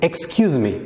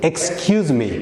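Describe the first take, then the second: No difference in how they are said.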